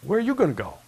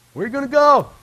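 First: Said in the usual way. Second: High, loud, incredulous; loud exclaim. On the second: Shown as a demonstration. Preacher echoing Peter, louder and higher. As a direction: fling the question out. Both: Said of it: "repeat builds".

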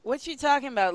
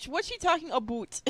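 First: Said in the usual way. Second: "about" said like "a-boot"; quick, with "about" turned into "aboot"; exaggerated "about". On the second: Retake exaggerating the odd spelling.

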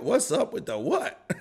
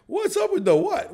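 First: Said in the usual way. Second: Much higher, laughing through it. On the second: Real, not acted. Streamer laughing at a chat rhyme, much higher. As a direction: crack up as you repeat the question.

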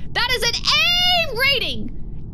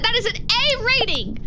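First: "A rating" slow and high, leaning on "A"; drawn-out boast. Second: Said in the usual way. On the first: Shown as a demonstration. Boasting about the success rate, slow high stress on "A". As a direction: stretch it out proudly, "A" held. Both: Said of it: "repeated emphasis".

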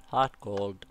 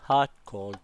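Both takes have the same delivery.

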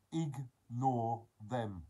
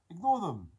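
First: "ignore them" broken into slow separate syllables; slow and emphatic. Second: "Ignore them" in one quick, higher, louder burst; firm repeat. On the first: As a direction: stretch out "ignore them" piece by piece. Spells out advice syllable by syllable. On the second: Repeats the advice firmly, at speed. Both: Real, not acted.

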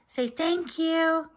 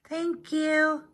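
First: Slow, pitched-up coaxing prompt; coaxing pet. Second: Pitched-up little pet voice, a light put-on; voicing the pet. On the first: Real, not acted. Owner prompts Mary to thank the giver, coaxing. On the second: Owner speaks for Mary thanking Kathy, cute pet voice.

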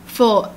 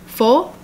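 First: Said in the usual way. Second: FOUR with a rising question tune; FOUR asked as a surprised check. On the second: Acted. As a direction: query FOUR, pitch lifting at the end. Other character queries the time.

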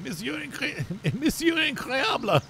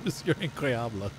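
First: High, slow, laughing mock French announcer; Incredibles French guy. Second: Said in the usual way. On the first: Recalling the French guy from The Incredibles, high mock French. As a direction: stretch the name out like a grand French host. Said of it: "the French guy". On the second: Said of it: "Mister Incredible".

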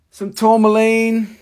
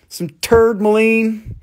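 First: Said in the usual way. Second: Tourmaline said as "turdmaline"; joke mispronunciation. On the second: Shown as a demonstration. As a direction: say "turdmaline" with a hillbilly twang.

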